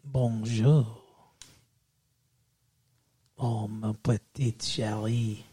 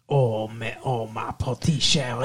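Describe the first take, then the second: First: Low, slow, soft mock French; French accent. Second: Mock Creole accent. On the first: Boyfriend wooing fiancée in a mock French accent. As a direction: ooze it in a put-on French accent. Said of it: "my French accent". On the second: Boyfriend offering fiancée a mock Creole accent instead. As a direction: switch to a put-on Creole accent. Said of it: "How about some Creole?".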